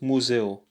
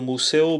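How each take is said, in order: First: The s is sounded close to a z. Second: The s is sounded as a plain s. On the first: The speaker calls it right. "the S sounds a little bit like a Z here" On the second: The speaker calls it wrong. "It's not a museo"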